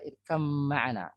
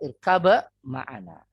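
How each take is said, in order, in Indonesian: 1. Bunyi b menyatu sepenuhnya ke dalam m. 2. Bunyi b tetap diucapkan sebelum m. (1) "Dibaca irkam ma'ana itu" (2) "Asalnya irkaba ma'ana"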